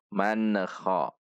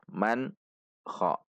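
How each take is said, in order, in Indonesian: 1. Huruf n memiliki bunyi lepasan yang memantul. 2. Huruf n terputus dari kha. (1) "yang sering terjadi adalah memantul man kha" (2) "Tidak juga terpisah man kha"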